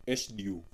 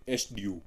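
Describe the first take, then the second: No difference in how they are said.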